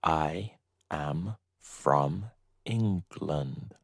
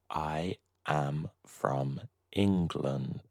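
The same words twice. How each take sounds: First: Said in the usual way. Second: A whispered repeat for the learners. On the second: Shown as a demonstration. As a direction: say the same sentence again in a whisper.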